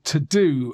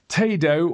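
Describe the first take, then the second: First: It sounds just like 'to do'. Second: It does not sound like 'to do'.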